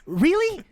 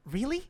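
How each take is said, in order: First: Much higher, louder incredulous question; exasperated disbelief. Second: Higher, softer incredulous question; questioning disbelief. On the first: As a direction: repeat it sharply, demanding an answer. Character confronts finger thief, repeats it. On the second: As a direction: ask it softly in rising disbelief. Character confronts finger thief, first take. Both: Acted.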